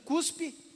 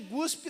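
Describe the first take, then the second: First: The word begins with a voiceless k sound. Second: The word begins with a voiced g sound. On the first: It is the standard word. The speaker calls it right. "O cuspe é certo" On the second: It is street slang. The speaker calls it wrong. "eu que falei guspe. Que guspe é coisa de pendência"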